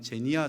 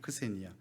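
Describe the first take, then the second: First: The word begins with a 'z' sound. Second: The word begins with a 'ks' sound. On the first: "혹시 영어로 발음한다면 제니아 정도 될 것입니다" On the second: "크세니아입니다"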